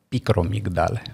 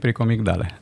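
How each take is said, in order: First: The r comes right after the c. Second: The r comes right after the first p. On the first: This is the dictionary form of the word. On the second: This is the everyday form of the word.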